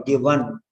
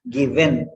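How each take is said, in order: First: "given" said "gi-VAN" with AH; wrong full vowel. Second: First "given" said "gi-VEN"; wrong full vowel. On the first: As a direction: put an open AH in the ending of "given". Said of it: "No A, no A". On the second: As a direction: give "given" a full E in its ending. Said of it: "there is no given". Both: Shown as a demonstration.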